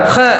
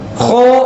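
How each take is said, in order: First: The syllable is said with a thin, light sound. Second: The syllable is said with a thick, heavy sound. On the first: The speaker calls it wrong. "jangan kha" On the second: The speaker calls it right. "Kho tebal"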